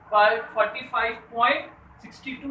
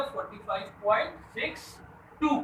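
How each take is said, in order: First: Emphatic "सिक्सटी टू" joined as one whole number; wrong decimal reading. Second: "सिक्स", pause, "टू" as separate digits; correct decimal reading. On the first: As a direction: read the decimal part jointly as "सिक्सटी टू". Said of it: "नहीं पढ़ेंगे". ("सिक्सटी टू" को एक पूरी संख्या की तरह पढ़ते हुए) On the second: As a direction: let "सिक्स" hang, then say "टू" alone. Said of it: "क्या पढ़ेंगे?". ("सिक्स" और "टू" अलग-अलग, बीच में रुककर) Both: Shown as a demonstration.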